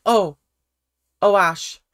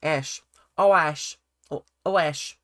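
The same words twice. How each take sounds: First: Said in the usual way. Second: Lightly imitated Australian accent; mock Australian twang on Ash. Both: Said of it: "let me get into the Australian accent".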